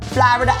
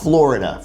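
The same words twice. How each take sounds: First: Florida is said with a New York vowel. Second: Florida is said with a non-New York vowel. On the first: "It's Florida" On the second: "It's not Florida for a New Yorker"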